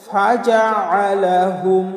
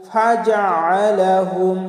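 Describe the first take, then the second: Both takes have the same delivery.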